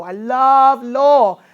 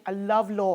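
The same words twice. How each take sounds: First: "law" drawn out very slowly and louder; slow emphatic declaration. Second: Said in the usual way. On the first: Real, not acted. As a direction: savor every word of "I love law".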